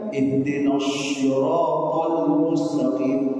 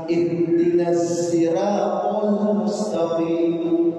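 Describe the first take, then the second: First: Sirat begins with an emphatic, heavy s sound. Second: Sirat begins with a buzzing z sound. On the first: "hampir seluruh ulama menggunakan lafaz ini dengan menggunakan short" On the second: "ada yang membaca short diganti dengan za"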